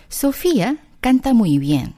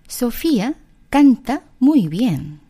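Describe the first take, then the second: First: A touch faster second take, still slow; slow repeat. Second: Very slow, word by word; slow demo. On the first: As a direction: repeat it slowly for learners. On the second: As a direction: spell the sentence out slowly. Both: Shown as a demonstration. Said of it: "라고 한다면".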